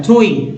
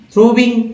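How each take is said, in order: First: थ्रोइंग with no v, thro-ing; correct pronunciation demo. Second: थ्रोविंग with a v sound before -ing; wrong pronunciation demo. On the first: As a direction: glide from o straight into -ing in थ्रोइंग. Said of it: "देखिए ये ऐसे बनता है". (थ्रोइंग को बिना 'व' के, ओ से इंग जोड़कर बोलना) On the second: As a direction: say थ्रोविंग as thro-ving, pitched up. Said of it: "गलत कर बैठते हैं". (थ्रोविंग को 'व' की आवाज़ के साथ बोलना) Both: Shown as a demonstration.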